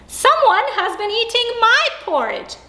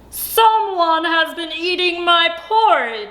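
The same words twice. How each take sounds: First: It is said in a middle-sized voice. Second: It is said in a great big voice.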